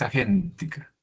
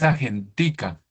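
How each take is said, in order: First: The stress falls on the syllable gen. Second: The stress falls on the syllable ti. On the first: The speaker calls it right. "ese es esdrújula, es agéntica" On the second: The speaker calls it wrong. "no es agentica"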